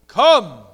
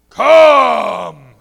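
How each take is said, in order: First: The word is said at a plain, normal volume. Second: The word is said loudly in a booming voice. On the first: "Does that sound like thunder?" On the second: "Does that sound like thunder better?"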